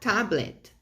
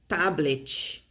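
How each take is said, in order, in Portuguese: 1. O T tem um som parecido com o do inglês. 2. O T tem um som parecido com o do português. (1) "você vai falar tablet" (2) "Você não vai falar é, tablet"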